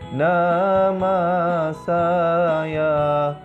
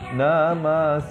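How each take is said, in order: First: Each syllable has a drawn-out vowel. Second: Each syllable has a short vowel. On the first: "bacaan mad" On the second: "baris atas atau fathah"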